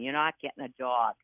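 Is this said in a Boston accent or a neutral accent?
Boston. It is said in a Boston accent.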